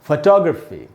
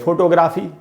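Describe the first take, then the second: First: The stress is on the second syllable. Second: The stress is on the first syllable. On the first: The speaker calls it right. "हमको फ पर बिल्कुल नहीं रुकना, अ पर रुकना है" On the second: The speaker calls it wrong. "इसको अपने देश में क्या पढ़ेंगे?"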